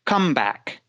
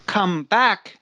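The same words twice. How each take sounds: First: "COME back" as one noun, first syllable stressed. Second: "come BACK" as two words, back stressed. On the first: Teacher showing the phrasal noun form, stress on COME. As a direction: hit "come" and let "back" fall away. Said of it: "when we use it as a noun". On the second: Teacher showing the phrasal verb form, stress on BACK. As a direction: separate the words and land on "back". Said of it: "where the phrasal verb is come back". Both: Shown as a demonstration.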